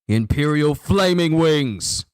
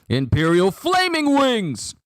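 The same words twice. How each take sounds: First: It is said in a lower voice. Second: It is said in a high voice.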